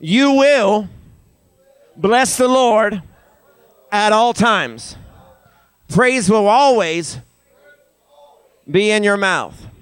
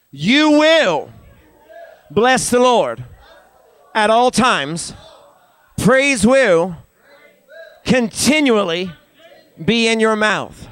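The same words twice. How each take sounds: First: Slow, raised phrases for a crowd to echo; feed it to them phrase by phrase; higher, deliberate call-and-response lead; leading a repeat-after-me. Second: High, forceful telling-off, phrase by phrase; emphatic near-yell with attitude. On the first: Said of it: "Say it again". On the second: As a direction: order them, as if about to yell. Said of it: "as if you're about ready to yell at 'em". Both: Shown as a demonstration.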